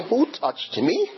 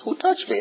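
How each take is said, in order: First: Slow, higher, incredulous echo of Who touched me; mocking echo. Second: Much higher, searching question; Jesus asking. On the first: Disciples echoing Jesus in disbelief, slow mocking rise. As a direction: disciples mock the question with a rising tune. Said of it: "Peter and the other disciples". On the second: Retold or imitated. Preacher voicing Jesus asking the crowd, high searching call. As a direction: call out over the crowd, asking who touched you. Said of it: "when he says".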